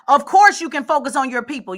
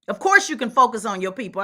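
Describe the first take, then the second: First: It is said loudly. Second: It is said at normal volume.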